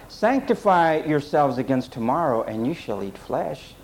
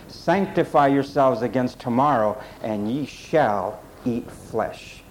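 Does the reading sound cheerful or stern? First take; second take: cheerful; stern. First: It is read in a cheerful, promising tone. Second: It is read in a stern, warning tone. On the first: A reward is being promised. The speaker calls it wrong. "that sounds like, oh, you're going to get your way now" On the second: A judgment is being announced. The speaker calls it right. "Let's read it this way"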